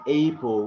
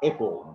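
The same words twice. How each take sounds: First: APPLE with a long AY, "AY-pul"; wrong pronunciation. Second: APPLE with a short, open A; APPLE as AP-ul, no AY sound; correct pronunciation. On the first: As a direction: say "apple" as if it began like "ape". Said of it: "which is wrong". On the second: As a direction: start "apple" with the vowel of "cat". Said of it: "you have to pronounce like". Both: Shown as a demonstration.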